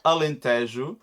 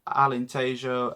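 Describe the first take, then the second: First: The name is said with a Portuguese accent. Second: The name is said with an English accent. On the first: The speaker calls it right. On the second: The speaker calls it wrong.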